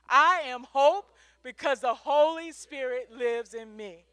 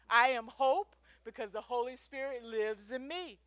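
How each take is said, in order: First: It is said a little louder. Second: It is said at normal volume.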